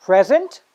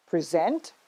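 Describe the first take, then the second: First: PREsent, stressed on the first syllable. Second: PreSENT, stressed on the second syllable. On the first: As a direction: say "present" as the noun, punching "pre". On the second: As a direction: say "present" as the verb, weight on "sent". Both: Shown as a demonstration. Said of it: "Let's do it one more time".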